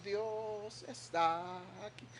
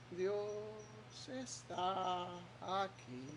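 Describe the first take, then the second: First: Said in the usual way. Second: Sung, soft, dragged-out, half-hearted "Dios está aquí"; sung, drag "está aquí" slowly with no faith; listless singing. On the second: Shown as a demonstration. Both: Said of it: "pero cantamos con una".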